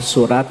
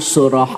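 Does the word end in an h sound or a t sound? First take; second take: t sound; h sound. First: The word ends with a clear t sound. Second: The word ends with a soft h sound. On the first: The speaker calls it wrong. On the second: The speaker calls it right.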